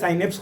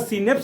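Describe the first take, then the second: First: The first syllable sounds like 'sigh'. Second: The first syllable sounds like 'see'. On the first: "कोई कहता है साइनेप्स कहता है" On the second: "सीनेप्स आप करें सही है"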